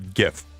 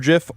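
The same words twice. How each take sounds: First: It starts with a hard G sound. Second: It starts with a soft J sound.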